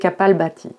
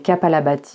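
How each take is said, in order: First: No vowel is heard between the 'l' and 'bh'. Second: A vowel is heard between the 'l' and 'bh'. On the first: The speaker calls it right. "il vaut mieux prononcer" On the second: The speaker calls it wrong. "souvent appelé"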